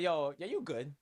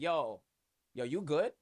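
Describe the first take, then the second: First: It sounds like an easygoing dismissal. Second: It sounds like a caring check-in.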